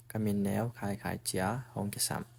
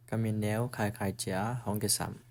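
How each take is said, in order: Both takes have the same delivery.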